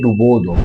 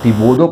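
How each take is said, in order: First: The first vowel is a u sound. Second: The first vowel is an i sound. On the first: The speaker calls it right. "ये सही लफ्ज़ है" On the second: The speaker calls it wrong. "बाद लोग इसको डिबोदो पढ़ते हैं"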